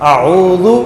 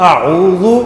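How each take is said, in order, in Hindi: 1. बीच का व्यंजन नरम, हल्का dh है। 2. बीच का व्यंजन नरम, हल्का dh है।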